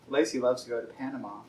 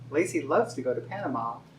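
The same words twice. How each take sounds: First: The pitch stays level through the sentence. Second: The pitch moves expressively through the sentence. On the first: The speaker calls it wrong. "it just isn't as, I don't know, fluid or feminine" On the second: The speaker calls it right. "part of that's inflection"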